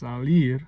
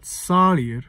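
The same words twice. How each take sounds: First: The stress is on the second syllable. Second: The stress is on the first syllable. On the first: The speaker calls it right. "it's salir. That ir falls in the first beat, that strong beat" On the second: The speaker calls it wrong. "it's not salir"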